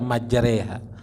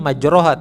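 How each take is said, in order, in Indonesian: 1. Vokal setelah r terdengar seperti 'e'. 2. Vokal setelah r terdengar seperti 'o'. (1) "harus dibaca majreha" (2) "Tulisannya majroha"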